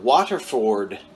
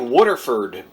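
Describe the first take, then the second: First: The first part sounds like 'water', a standard accent. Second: The first part sounds like 'wooder', a local accent. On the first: This is the usual way that others would not laugh at. The speaker calls it right. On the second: This is how the speaker's home region says it. The speaker calls it wrong.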